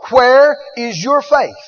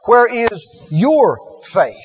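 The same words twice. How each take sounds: First: Said in the usual way. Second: Slow, "your" leaned on; stress on your. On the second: Shown as a demonstration. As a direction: point the question at them by hitting "your". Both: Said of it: "He's not talking to them about his".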